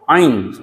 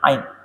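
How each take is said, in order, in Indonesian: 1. Diucapkan dengan nada sengau. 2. Diucapkan tanpa udara keluar lewat hidung. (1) "sengong, sedikit disengong kan gitu" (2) "Kalau yang ahli tajwid asli disuruh tutup hidungnya, ain gitu ya"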